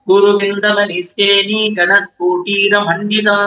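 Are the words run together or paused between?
run together. The words are run together without pauses. "இதை எப்படி சேர்த்து படிக்கிறது?"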